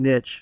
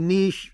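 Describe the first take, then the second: First: The word is said with a non-British pronunciation. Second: The word is said with the British pronunciation. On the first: "I say niche" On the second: "The Brits say niche"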